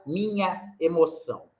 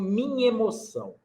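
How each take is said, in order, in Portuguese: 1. O a e o e são ditos como sílabas separadas. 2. O a e o e se fundem em uma só sílaba. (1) "A gente não fala minha emoção" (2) "nós falamos minha emoção. Aí está uma elisão. Juntou em A com E"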